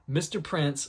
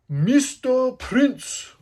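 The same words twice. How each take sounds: First: Said in the usual way. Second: High, loud, very slow stylized announcement; showy alias call. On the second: Shown as a demonstration. Fan savouring Sanji's alias, drawn-out high shout. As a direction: belt out the name, stretching each word. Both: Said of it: "I love saying it like that".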